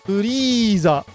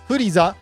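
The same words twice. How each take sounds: First: The E vowel is held long. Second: The E vowel is short. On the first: The speaker calls it right. "there's another long vowel in this name" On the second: The speaker calls it wrong. "it's not Furiza"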